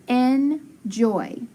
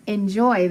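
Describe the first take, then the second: First: Enjoy drawn out slowly; slow blend. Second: Said in the usual way. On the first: Shown as a demonstration. Teacher blending the syllables for pupils. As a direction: stretch enjoy out evenly.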